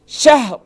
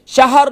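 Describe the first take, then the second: First: شہر with a silent ha, shahr; شہر said with a clear sukoon on the ha; correct sukoon. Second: شہر with a fatha on the ha, shahar; شہر said with the ha voweled, shahar; wrong vowel. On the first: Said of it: "سکون پڑھ رہے ہیں". (درست: ہا ساکن) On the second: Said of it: "شہر نہیں". (غلط: ہا پر زبر) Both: Shown as a demonstration.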